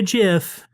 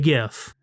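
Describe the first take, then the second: First: The word starts with a soft J sound. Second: The word starts with a hard G sound. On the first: The speaker calls it wrong. "So don't give me a GIF" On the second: The speaker calls it right. "It's a hard G"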